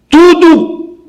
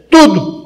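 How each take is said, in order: First: "Tudo" cried out high and long, falling slowly; emphatic Tudo. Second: "Tudo." repeated short and firm, falling; short echoed Tudo. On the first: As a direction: stretch "Tudo" high and drawn out, then let it fall. Preacher stresses Solomon's conclusion. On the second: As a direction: clip "Tudo." as a quick firm echo. Preacher repeats the word as an echo. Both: Acted.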